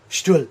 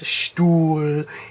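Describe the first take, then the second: First: The vowel is cut short. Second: The vowel is held long. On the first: The speaker calls it wrong. "instead of" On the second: The speaker calls it right. "lengthening this U to get it a nice Stuhl"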